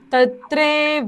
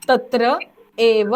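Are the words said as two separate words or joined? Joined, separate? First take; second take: joined; separate. First: The two words are merged into one. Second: The two words are said separately. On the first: "बोलणार कसा शब्द" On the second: "इथे शब्द कसा फुटतोय बघा"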